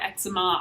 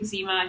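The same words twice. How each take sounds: First: It uses the non-Canadian pronunciation of the word. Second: It uses the Canadian pronunciation of the word. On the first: This is how some other people say it. "some people pronounce it eczema" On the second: This is how the speaker says it. "I say eczema. I think it's a Canadian thing"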